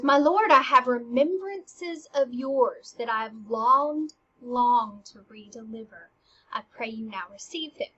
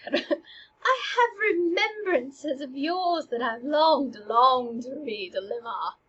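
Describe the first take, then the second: First: Ophelia returning gifts. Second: Slow, lingering, wistful line; poignant breakup delivery. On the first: Acted. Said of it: "she goes". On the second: Shown as a demonstration. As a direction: say it like a tender farewell. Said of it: "I would have thought to".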